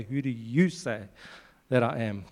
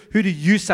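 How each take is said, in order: First: A gentle, searching question; intimate question. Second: "Who do you say?" asked louder with a lift on "Who"; a mild forceful challenge; probing question. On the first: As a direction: ask "Who do you say that I am?" quietly, eye to eye. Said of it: "looked in their eyes and say". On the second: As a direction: put "Who do you say?" to them boldly. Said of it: "I'm sure as he says". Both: Retold or imitated.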